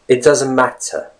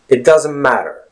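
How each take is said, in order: First: The T in matter is a crisp T. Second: The T in matter is a soft flap. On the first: "that's the typical British pronunciation" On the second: "another phrase using the same word matter"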